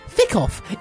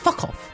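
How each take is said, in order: First: The first word has an Irish vowel. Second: The first word has a standard vowel.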